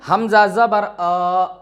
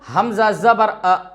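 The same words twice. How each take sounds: First: The final vowel is drawn out and said slowly. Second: The final vowel is short and said quickly. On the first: The speaker calls it wrong. "ना कि हम ऐसे पढ़ें ... ये हमारा गलत हो जाएगा" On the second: The speaker calls it right. "जल्दी से पढ़ने का मतलब"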